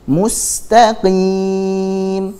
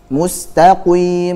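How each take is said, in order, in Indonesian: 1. Bunyi q agak berat, berada di antara keduanya. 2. Bunyi q sangat berat, dengan bibir membulat. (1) "jangan terlalu tebal, jangan juga terlalu tipis" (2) "contohnya begitu, salah"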